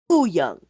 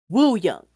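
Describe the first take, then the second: First: The name starts without a W sound. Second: The name starts with a W sound. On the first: The speaker calls it right. "The W is silent" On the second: The speaker calls it wrong. "You would think that it was pronounced Woo Young"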